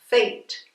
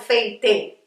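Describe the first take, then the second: First: The final e is silent. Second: The final e is sounded as a vowel. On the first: The speaker calls it right. "Veja que eu falo fate" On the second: The speaker calls it wrong. "não falo fate"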